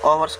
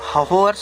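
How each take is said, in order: First: The word begins with a vowel, no h. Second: The word begins with an audible h sound. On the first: The speaker calls it right. "एच silent रहता है तो इसे ओवर्स कह देंगे" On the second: The speaker calls it wrong. "इसको होवर्स नहीं कहेंगे"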